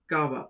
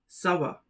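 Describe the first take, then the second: First: The phrase begins with a hard K sound. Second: The phrase begins with a soft S sound. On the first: The speaker calls it wrong. "If we remove the Sedi, it becomes Ka-va" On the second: The speaker calls it right. "it is pronounced as Sa-va"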